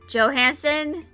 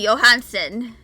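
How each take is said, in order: First: The name is said with an English pronunciation. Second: The name is said with a Nordic pronunciation. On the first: "some people pronounce it as" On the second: "my mind always goes to"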